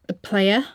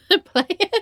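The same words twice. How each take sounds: First: Said in the usual way. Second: Laughing. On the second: Acted.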